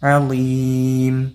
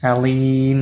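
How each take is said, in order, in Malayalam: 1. അവസാനം ചുണ്ട് അടച്ചാണ് പറയുന്നത്. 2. അവസാനം ചുണ്ട് അടയ്ക്കാതെയാണ് പറയുന്നത്. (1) "ചുണ്ട് കൂട്ടിയാലാണ് മീമ് കിട്ടുള്ളൂ" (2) "അലീം എന്ന് പറയരുത്"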